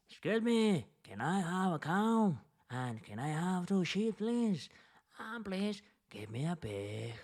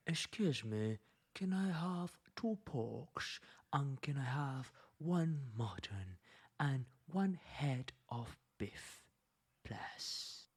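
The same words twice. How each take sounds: First: Peasant asking. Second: Quiet, polite noble request; noble asking. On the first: Lecturer voicing poor peasants asking for animals, higher peasant voice. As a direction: call out like a plain peasant. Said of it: "While the people, the peasants, the poor people, liked and preferred". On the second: Lecturer voicing nobles ordering meat, quiet polite noble. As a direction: softly ask like a nobleman. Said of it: "So they prefer to use". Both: Retold or imitated.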